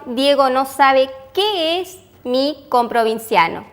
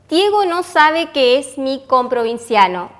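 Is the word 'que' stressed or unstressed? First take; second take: stressed; unstressed. First: The word 'qué' is stressed. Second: The word 'que' is unstressed. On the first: Diego does not know what a fellow provincial is. "el que va con tilde" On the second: Diego does not know that he is my fellow provincial. "la palabra que está sin tilde es una conjunción"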